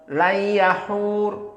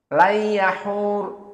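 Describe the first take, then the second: Both takes have the same delivery.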